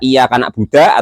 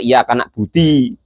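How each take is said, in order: First: The last word ends with an a vowel. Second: The last word ends with an i vowel.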